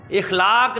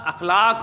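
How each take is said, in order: First: "इखलाक" opening with i; the wrong "इखलाक", ikhlaaq; teacher quotes the wrong "इखलाक"; wrong pronunciation. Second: "अखलाक" opening with a; teacher models "अखलाक"; correct pronunciation. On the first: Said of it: "नहीं होता". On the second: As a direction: say "अखलाक", akhlaaq. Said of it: "होता है". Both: Shown as a demonstration.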